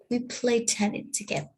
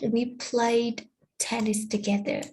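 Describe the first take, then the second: First: The d ending of played is dropped. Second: The d ending of played is clearly pronounced. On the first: "when we say it quickly, it can sound like" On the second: "in correct speech"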